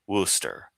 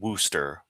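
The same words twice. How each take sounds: First: The first vowel sounds like the one in book. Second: The first vowel sounds like the one in root. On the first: The speaker calls it right. "more of Wooster" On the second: The speaker calls it wrong. "Instead of root, instead of Worcester"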